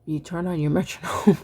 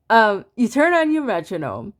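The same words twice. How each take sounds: First: Breaking into a laugh mid-sentence. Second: Said in the usual way. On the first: Real, not acted. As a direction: chuckle through the words. Laughs at own slip.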